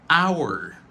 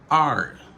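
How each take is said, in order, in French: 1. Il se prononce avec le son complet de 'our'. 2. Il est réduit au son de la lettre R. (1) "c'est prononciation normale" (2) "La réduction, c'est R"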